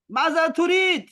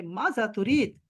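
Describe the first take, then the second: First: Maaza तुरीद asked higher and louder, demanding; different tone. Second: Said in the usual way. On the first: Shown as a demonstration. Teacher showing a varied tone to students, higher demanding ask. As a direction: fling the question out sharply. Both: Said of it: "लहजे मुख्तलिफ करके".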